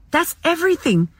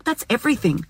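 First: "That's everything" lifted higher, with "everything" driven home and falling; emphatic. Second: Said in the usual way. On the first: Shown as a demonstration. Telling listeners happiness is "everything", higher and emphatic. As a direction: repeat "That's everything" as the point that matters.

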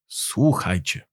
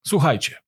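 First: Slow, low, softened call to listen; drawn-out, lowered opening call before a recital; solemn call to attention. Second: Said in the usual way. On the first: A narrator's reading. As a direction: announce it gravely, taking your time. Repeated after clearing his throat.

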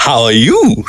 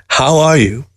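First: "How are you?" as a comeback, weight on "you"; mocking echo with a falling "you"; retort. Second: Said in the usual way. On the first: A narrator's reading. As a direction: throw the question back, leaning on YOU. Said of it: "she retorted".

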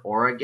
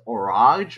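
First: Orage in three syllables, ending in "gay"; alternative pronunciation of Orage. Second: Orage, French-style, with a silent final e; tentative pronunciation of Orage. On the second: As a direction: say Orage like "oh-RAHZH". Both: Shown as a demonstration. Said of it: "how you pronounce that word".

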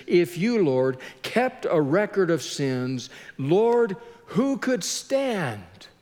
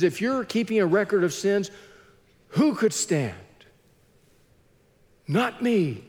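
First: Slow, drawn-out appeal to God; acted slow, helpless question; pondering from the depths. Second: Lightly acted relief, misery loving company; a touch of rueful relief; a bit relieved. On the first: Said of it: "pondering the fact that he's in the depths". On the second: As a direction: ask it more briskly, then own up. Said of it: "psalmist being a bit relieved that misery loves company".

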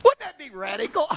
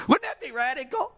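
First: Said in the usual way. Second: Laughing through the question, high. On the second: Shown as a demonstration. Preacher to congregation, laughing at the radical idea. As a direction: laugh as you ask it.

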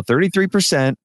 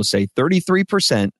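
First: Higher-pitched echo of the coach's line; lightly voiced twelve-year-old repeating a prompt; imitated kid repeating. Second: Spoken in the usual pitch, to be copied; patient prompt to repeat; coach's model line. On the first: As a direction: pitch it up like a child copying an adult. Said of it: "And he'll go". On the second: Shown as a demonstration. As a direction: correct the kid with a clear model. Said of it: "exactly as I want them to say it".

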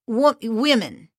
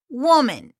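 First: False start on "wo-", then carefully pronounced plural "women"; self-corrected plural women. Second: "woman" in a Spanish accent, sounding like the singular; Spanish-accented "woman" with the singular vowel; Spanglish accent slip. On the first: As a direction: restart "wo-", then "women" with a first syllable like "wim". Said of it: "I'm talking about the women with". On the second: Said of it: "sorry, that's my accent". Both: Shown as a demonstration.

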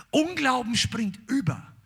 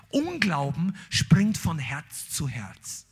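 First: Said in the usual way. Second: Unglauben stretched out slowly with weight on Unglauben; slow, heavy stress on Unglauben, then falling; slow emphasis. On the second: Shown as a demonstration.

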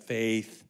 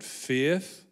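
First: "faith" as one American syllable; "faith" with one vowel straight into the th. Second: "faith" stretched into two syllables, fay-ith; "faith" with a second vowel before the th. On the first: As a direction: say "faith" in a single beat, American style. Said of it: "I know in American it's got faith". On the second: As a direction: say "faith" the speaker's own way, in two beats. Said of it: "my language it is two syllables". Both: Shown as a demonstration.

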